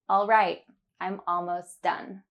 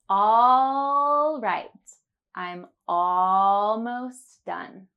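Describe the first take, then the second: First: It is said at a natural speed. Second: It is said slowly and carefully.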